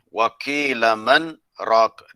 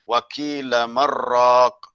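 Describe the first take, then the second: First: A brief stop comes before the last word. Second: The last two words run together without stopping. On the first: "kita baca di situ dengan saktah" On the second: "Kalau baca tanpa saktah, dia baca dengan hukum idgham bila gunnah"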